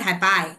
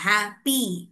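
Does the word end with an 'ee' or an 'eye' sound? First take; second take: eye; ee. First: The word ends with a long 'eye' sound. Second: The word ends with a long 'ee' sound. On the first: The speaker calls it wrong. "It's not हैपाई" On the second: The speaker calls it right. "तो उसका pronunciation ई से आएगा"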